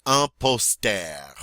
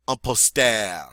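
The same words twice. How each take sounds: First: "Un poster" repeated slowly; slow French repeat. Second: "Un poster" said the French way; French model word. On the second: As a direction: say "Un poster" with the stress on -ter. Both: Shown as a demonstration. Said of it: "go for it".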